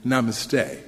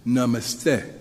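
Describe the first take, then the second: First: Namaste with the stress on the last syllable, "stay"; American mispronunciation. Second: Namaste as "nuh-MUS-teh", short vowels, stressed middle; correct pronunciation. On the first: Speaker showing the congregation his mistaken habit, stressed last syllable in namaste. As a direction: say namaste American-style, leaning on the final "stay". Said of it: "place the emphasis on the last syllable". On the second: Speaker teaching the congregation the correct word, namaste stressed in the middle. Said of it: "the correct pronunciation is namaste". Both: Shown as a demonstration.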